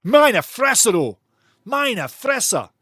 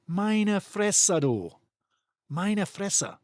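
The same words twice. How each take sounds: First: Higher, louder German phrase; exaggerated German "Meine Fresse"; German exclamation. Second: Muttered "Meine Fresse", falling; under-the-breath German "Meine Fresse"; softer German phrase. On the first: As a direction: mimic a German player's disbelief. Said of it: "The Germans say". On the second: Shown as a demonstration. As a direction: quietly say "Meine Fresse" to yourself. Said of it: "Say it to yourself".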